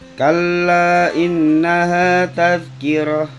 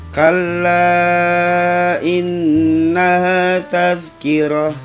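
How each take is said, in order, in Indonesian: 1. Vokal pada kalla dibaca sebentar. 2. Vokal pada kalla dibaca lebih panjang. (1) "boleh dibaca satu alif" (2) "dibaca lebih panjang lagi, dua setengah alif atau lima harokat"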